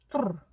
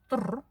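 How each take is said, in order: First: It is said with lips pushed forward. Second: It is said with lips pushed forward.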